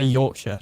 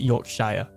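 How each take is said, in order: First: The ending is said as a short 'sure'. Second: The ending is said as a full 'shire'. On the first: The speaker calls it right. "you say Yorkshire" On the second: The speaker calls it wrong. "not Yorkshire"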